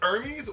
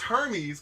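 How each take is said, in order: First: It is not said like the Greek god's name. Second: It is said like the Greek god's name. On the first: The speaker calls it right. "It's pronounced Hermes" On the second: The speaker calls it wrong. "Guess I pronounced the Greek god, but I guess I was wrong as heck"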